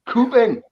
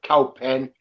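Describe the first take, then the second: First: The first syllable sounds like 'coo'. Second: The first syllable sounds like 'cow'. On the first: The speaker calls it right. "Coupon, not cowpen" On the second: The speaker calls it wrong. "not cowpen"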